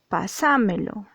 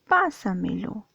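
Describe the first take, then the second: First: The stress falls on a later syllable. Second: The stress falls on the first syllable. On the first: The speaker calls it wrong. "Tú no dices pásamelo" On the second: The speaker calls it right. "dices pásamelo"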